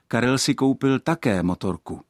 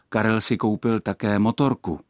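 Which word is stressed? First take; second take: Karel; motorku. First: The stress falls on the word Karel. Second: The stress falls on the word motorku. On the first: Someone else bought a motorbike before, and now this person did too. "pak je zde naznačeno, že ještě někdo jiný než Karel si už před nějakým časem koupil motorku" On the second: This person bought several things, a motorbike among them. "pak má věta smysl ten, že je řeč jen o samotném Karlovi a o jeho nákupech"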